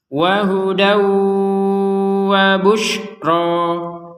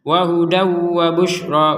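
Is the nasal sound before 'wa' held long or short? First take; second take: long; short. First: The nasal sound is held for two beats. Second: The nasal sound is very brief, with no hold. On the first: The speaker calls it right. "disertai dengungan" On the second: The speaker calls it wrong. "kan nggak sempurna dengungannya"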